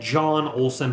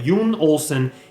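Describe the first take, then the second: First: The name begins with a J sound. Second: The name begins with a Y sound. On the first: This is how English speakers would say it. "what we would call him" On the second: This is how the man himself says it. "his pronunciation of his name is"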